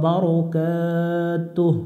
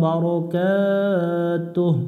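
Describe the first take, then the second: No difference in how they are said.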